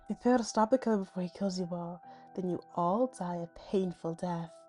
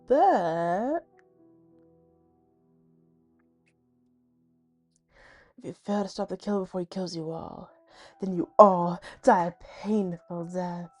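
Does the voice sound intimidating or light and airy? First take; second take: light and airy; intimidating. First: The voice sounds light and airy. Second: The voice sounds dark and intimidating.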